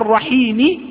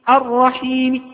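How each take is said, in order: First: The final vowel is pronounced fully and clearly. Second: The final vowel is only faintly, quietly hinted. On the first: "فأجئت بكل الحركة" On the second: "قلت الرحيم الرحيم هكذا، هذا نسميه روم"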